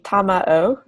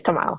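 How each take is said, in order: First: The name is said with three syllables. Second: The name is said with fewer syllables. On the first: "three syllables" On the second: "usually Spanish speakers say Tamao"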